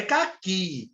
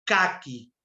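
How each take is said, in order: First: "caqui" stressed ca-QUI, with a long final i; stress on last syllable. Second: "caqui" stressed KÁ-qui, on the first syllable. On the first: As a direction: lean on the end of "caqui", drawing out QUI. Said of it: "Não é caqui". ("caqui" como oxítona, ca-QUÍ alongado) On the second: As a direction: hit the "ca" of "caqui" and let "qui" drop. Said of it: "paroxítona terminar em I". ("caqui" como paroxítona, CÁ-qui) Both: Shown as a demonstration.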